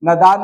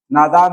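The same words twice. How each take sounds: First: नादान with short first a, "nadaan"; wrong form. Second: नादान with long "naa"; correct form. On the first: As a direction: clip the "na" of नादान. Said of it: "नादान नहीं होता है". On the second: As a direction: stretch the first vowel of नादान. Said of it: "नादान होता है". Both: Shown as a demonstration.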